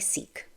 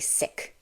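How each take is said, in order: First: The vowel is long, like in 'seek'. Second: The vowel is short, like in 'sick'. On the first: "Some people say seek" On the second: "others say sick"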